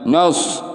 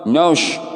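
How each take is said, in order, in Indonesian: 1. Vokalnya bunyi 'o' yang membulat. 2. Vokalnya bunyi 'o' yang membulat.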